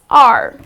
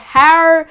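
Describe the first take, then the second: First: The word begins with a vowel, h silent. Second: The word begins with a spoken h sound. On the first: The speaker calls it right. "The correct pronunciation of this word is R. Again, the H goes silent" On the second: The speaker calls it wrong. "It's not hour or har... that's absolutely incorrect"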